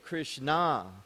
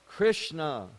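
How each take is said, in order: First: The stress is on the final syllable. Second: The stress is on the first syllable. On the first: It refers to a female figure. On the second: It refers to the male deity.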